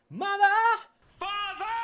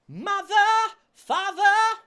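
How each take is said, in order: First: The middle th sound fades almost away. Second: The middle th sound is clearly pronounced. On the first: "the th in the set in the center of those words there kind of fades away" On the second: "rather than"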